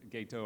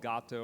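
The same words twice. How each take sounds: First: Gato said GAY-toe; alternative pronunciation. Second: Gato said GAH-toe; Spanish-style pronunciation. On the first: Lecturer offering another reading, Gato as GAY-toe. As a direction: say Gato with a long "ay". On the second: Lecturer naming the technology, Gato as GAH-toe. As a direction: say Gato with an open "ah". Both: Shown as a demonstration. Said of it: "or however you wanna pronounce it".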